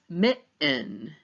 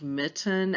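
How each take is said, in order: First: The middle t is replaced by a glottal stop. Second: The middle t is pronounced as a clear t.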